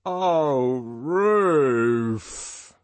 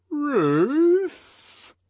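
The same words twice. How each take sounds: First: Loud, long swooping cry of joy; enraptured, swelling exclamation; voice of rapture. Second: "Ruth" very high and loud, drawn out with a dip and rise; "Ruth" as a long, loud, puzzled question. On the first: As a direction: draw it out in ecstasy. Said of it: "he repeated in a voice of rapture". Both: A narrator's reading.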